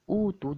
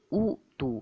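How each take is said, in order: First: A short vowel is followed by a glottal stop. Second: The first vowel is lengthened to two counts. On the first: This is the original form with two hamzahs. "Asalnya utu" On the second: This is how the word is actually recited. "dibaca dengan utu"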